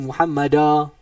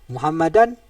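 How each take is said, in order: First: The word ends on a vowel without n. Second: The word ends with an audible n sound. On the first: The reading stops at this word. "jadi Muhammada habis eh tak bunyi dah nun" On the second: The reading continues on to the next word. "nun mati dalam tanwin hanya dibaca ketika wasal"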